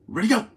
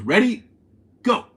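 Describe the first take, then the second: First: It is snapped out with no pause. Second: There is a pause between ready and go.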